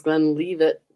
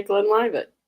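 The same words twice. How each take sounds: First: "Glenlivet" with "liv" said as leave; "Glenlivet", long ee in the middle, LEE-vit; American pronunciation. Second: "Glenlivet" with "liv" said as in five; "Glenlivet", long i in the middle, LIVE-it; British pronunciation. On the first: To the chat, demoing the American "Glenlivet" as glen-LEE-vit. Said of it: "American pronunciation is". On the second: To the chat, demoing the British "Glenlivet" as glen-LYE-vit. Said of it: "British say". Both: Shown as a demonstration.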